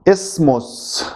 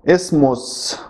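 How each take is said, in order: Both takes have the same delivery.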